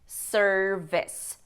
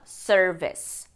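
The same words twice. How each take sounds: First: It is said with an English pronunciation. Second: The same.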